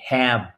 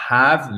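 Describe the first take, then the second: First: "have" with the short English a of cat; English "hav" vowel in have; correct have. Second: "have" with a broad "ah"; French-style open vowel in "have"; mispronounced have. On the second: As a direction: say "have" wrongly as "hahv". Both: Shown as a demonstration. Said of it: "c'est pas have".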